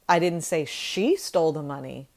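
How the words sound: The word she carries strong stress.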